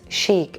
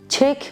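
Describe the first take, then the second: First: It sounds like sheek, with a soft start. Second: It sounds like the word chick. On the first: The speaker calls it right. "the pronunciation is chic" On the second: The speaker calls it wrong. "don't mispronounce it like cheek, chick"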